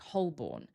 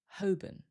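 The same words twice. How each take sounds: First: The L is clearly pronounced, second syllable full. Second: The L is silent, second syllable weak. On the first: The speaker calls it wrong. "This one looks like Holborn" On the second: The speaker calls it right. "we don't usually hear the L, and the second syllable becomes weaker"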